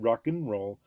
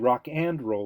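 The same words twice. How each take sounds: First: The word 'and' is reduced to a short 'n'. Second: The word 'and' is said in full. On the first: The speaker calls it right. "we said rock and roll, but mm means and" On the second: The speaker calls it wrong. "We didn't say rock and roll"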